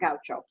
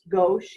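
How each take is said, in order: First: The word ends with an added 'oh' vowel. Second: The word ends on a plain 'sh' sound. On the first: The speaker calls it wrong. "It's not gaucho" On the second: The speaker calls it right. "It's pronounced gauche"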